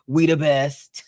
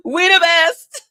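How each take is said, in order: First: Said in the usual way. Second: High, loud, laughing We the best. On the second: Real, not acted. Hyping fellow Tauruses, laughing loud and high. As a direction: crack up as you say it.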